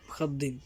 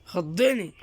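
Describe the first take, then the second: First: Startled, softer under the breath; quiet startled mutter. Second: Said in the usual way. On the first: Real, not acted. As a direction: mutter it, shaken.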